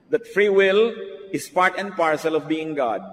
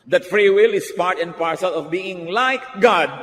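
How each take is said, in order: First: Said in the usual way. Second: Slower, weightier, leaning on "will"; preacher hammering the point; emphatic restatement. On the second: Shown as a demonstration. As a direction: drive home "free will" slowly and firmly.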